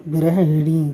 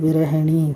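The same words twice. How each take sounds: The two takes are said the same way.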